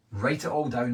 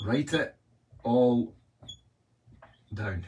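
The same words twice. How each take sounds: First: Said in the usual way. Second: "Write it" ... "all" ... "down." spaced out with long pauses; dramatic pauses. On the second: Shown as a demonstration. Coach to a live audience, stressing the key step with long pauses. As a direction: land each part of "Write it all down" alone, with a beat between. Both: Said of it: "Here's the big one".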